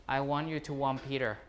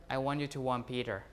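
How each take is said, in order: No difference in how they are said.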